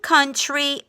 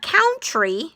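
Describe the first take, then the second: First: The first vowel sounds like the vowel in 'up'. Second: The first vowel sounds like the vowel in 'out'. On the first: The speaker calls it right. "the O is silent, and the U sounds like little u" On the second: The speaker calls it wrong. "So it's not country"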